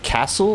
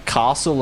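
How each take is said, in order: First: "castle" with a short A as in cat, "KASS-ul". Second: "castle" with a long AH, "KAH-sul"; British pronunciation of castle. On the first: Streamer comparing two ways to say "castle", short-A version. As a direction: say "castle" with a flat-cat vowel. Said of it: "castle and castle". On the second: Streamer comparing two ways to say "castle", long-AH version. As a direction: say "castle" the English way, broad A. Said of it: "like, U K pronunciation". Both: Shown as a demonstration.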